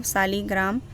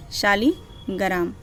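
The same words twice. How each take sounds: First: शालीग्राम said with a plain s at the start, saligram; शालीग्राम slipping into s instead of sh; wrong pronunciation. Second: शालीग्राम said slowly with sh at the start, shaligram; slow, careful शालीग्राम with a clear sh; corrected pronunciation. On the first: Real, not acted. Teacher misreads the name in her list, शालीग्राम with s. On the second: Shown as a demonstration. Teacher corrects herself, slowly saying शालीग्राम with sh. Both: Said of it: "सॉरी, शालीग्राम नहीं".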